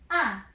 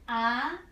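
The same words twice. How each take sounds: First: The pitch falls sharply from high to low. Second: The pitch rises from middle to high. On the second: "Second tone. ... Like you have a question"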